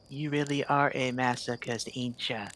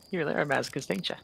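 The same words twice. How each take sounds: First: It is said at a slower pace. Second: It is said at a quick pace.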